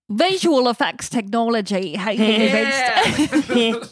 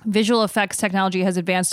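First: It is said in a New Zealand accent. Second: It is said in the speaker's ordinary accent.

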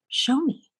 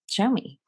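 First: It is said in a nice, gentle tone. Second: It is said in an arrogant, demanding tone.

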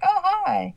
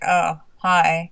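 First: It sounds warm and cheerful. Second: It sounds flat and cold.

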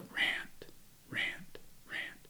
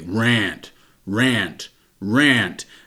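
First: It is said very quietly, almost inaudibly. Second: It is said very loudly and forcefully.

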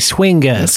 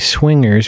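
First: The word is said in a Long Island accent. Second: The word is said in a plain accent. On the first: The speaker calls it right. "Swingas with a hard G, like from Long Island" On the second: The speaker calls it wrong. "we shouldn't say swingers"

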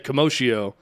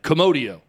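First: It is pronounced like the word commotion. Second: It is not pronounced like the word commotion.

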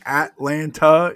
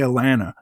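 First: The T inside the word is clearly pronounced. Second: The T inside the word is dropped. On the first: This is how outsiders say the city's name. The speaker calls it wrong. "I think Atlanta is in Texas" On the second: This is how locals say the city's name. The speaker calls it right. "But here we say Atlanta"

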